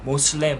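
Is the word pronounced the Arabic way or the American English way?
American English. It is pronounced the American English way, Moslem. The speaker calls it wrong. "자기들 영어 발음대로 한 거예요"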